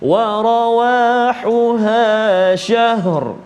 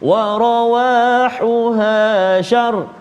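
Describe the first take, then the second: First: The last word ends with both h and r. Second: The last word ends with r, no h. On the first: The speaker calls it right. "ada bunyi ha dan ada bunyi ra" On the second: The speaker calls it wrong. "ha pula yang hilang"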